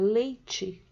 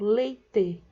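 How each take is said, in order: First: The word ends with a 'chee' sound. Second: The word ends with a 'teh' sound. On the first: This is how most people in São Paulo say it. "em São Paulo a maioria das pessoas pronuncie a palavra leite" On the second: This is how people in the south say it. "na região sul do país essa mesma palavra seja pronunciada como leite, em vez de ti, falar te"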